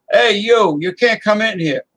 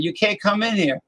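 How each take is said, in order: First: Higher and louder, barking the owner's warning; gruff owner. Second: Put-on Southern accent. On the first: Pretend. Restaurant owner turning a driver away, loud mock warning. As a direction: shoo him out of the restaurant. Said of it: "he's not gonna talk like that". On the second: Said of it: "with the Southern accent".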